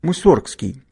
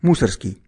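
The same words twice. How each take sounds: First: The stress is on a later syllable. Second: The stress is on the first syllable. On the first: "по-другому" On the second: "с ударением на первый слог и без буквы «Г»"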